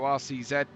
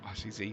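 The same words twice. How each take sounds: First: The last letter is said the British way, "zed". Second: The last letter is said the American way, "zee".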